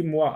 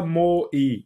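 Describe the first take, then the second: First: Said in the usual way. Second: "mo i" as two separate vowels, o then i; wrong split reading. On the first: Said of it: "ça se lit moi". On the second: Shown as a demonstration. Teacher warning pupils off a misreading, "mo i" pulled apart. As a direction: say "mo i" letter by letter, not as mwa. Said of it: "Attention, on ne dit pas mo i".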